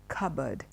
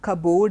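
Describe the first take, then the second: First: The second syllable sounds like 'bird'. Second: The second syllable sounds like 'board'. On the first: The speaker calls it right. "it is bird" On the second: The speaker calls it wrong. "It's not board"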